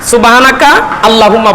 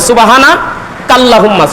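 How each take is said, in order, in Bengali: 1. বিরতি subhanaka-এর পরে, allahumma-এর আগে। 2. বিরতি subhana-এর পরে, kallahumma-এর আগে। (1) "অনেকে বলে সুবহানা সুবহানাকা আল্লাহুম্মা, বলে আল্লাহুম্মা হবে না" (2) "বলতে হবে সুবহানা বলিয়া থামতে হবে"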